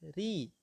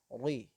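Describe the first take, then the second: First: The r is light and thin with one tap. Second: The r is thick and heavy sounding. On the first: The speaker calls it right. "dia memiliki sifat tarqiq atau tipis" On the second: The speaker calls it wrong.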